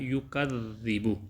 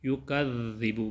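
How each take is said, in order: No difference in how they are said.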